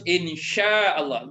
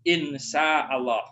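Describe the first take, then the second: First: The first word has a clear 'sh' sound. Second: The first word has a plain 's' sound. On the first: If God wills. The speaker calls it right. "itu harus insya Allah" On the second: It sounds like a word meaning bad. The speaker calls it wrong. "Tidak boleh insya Allah"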